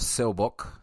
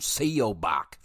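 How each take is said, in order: First: The name is pronounced in a Korean-like way. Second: The name is pronounced in an Americanized way. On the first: The speaker calls it right. "that's how most of them sounded on the uh, on the film itself" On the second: The speaker calls it wrong. "my fucking hillbilly ass was"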